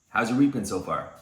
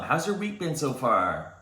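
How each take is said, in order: First: The voice sounds calm, composed and self-assured. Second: The voice sounds eager and keen to please. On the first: The speaker seems not to need the listener. The speaker calls it right. "Same words, different status" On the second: The speaker seems to need the listener's approval. The speaker calls it wrong. "most people have low status communication"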